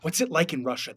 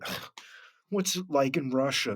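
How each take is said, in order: First: It is said in an excited, hopeful tone. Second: It is said in a whiny, gloomy tone.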